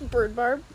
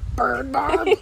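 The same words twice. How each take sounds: First: It is said in a calm, neutral way. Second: It is said in an angry way.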